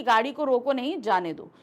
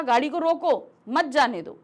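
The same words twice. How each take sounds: First: Tie नहीं to रोको and break before जाने दो; pause after नहीं. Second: Louder गाड़ी को रोको, break, then मत जाने दो; firm demo with the break between रोको and मत; pause after रोको. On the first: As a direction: demo grouping रोको नहीं apart from जाने दो. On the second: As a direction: stop on रोको, join मत to जाने दो. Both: Shown as a demonstration. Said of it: "जहाँ पर हम रुक रहे हैं".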